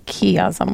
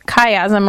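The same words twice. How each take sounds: First: Chiasm said as KEE-azm, hard k and long e, quieter; a friend's odd chiasm, softly imitated; Caleb's pronunciation of chiasm. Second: Chiasm said as KY-azm, hard k and long i; usual pronunciation of chiasm. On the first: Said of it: "which is weird to me". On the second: Shown as a demonstration. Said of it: "They call this a chiasm, or Caleb sometimes says chiasm".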